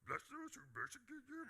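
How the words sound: It is said in a put-on character voice.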